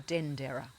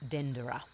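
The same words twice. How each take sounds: First: The stress is on the first syllable. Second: The stress is on the last syllable. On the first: "or on the D" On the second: "put the emphasis on the Ra"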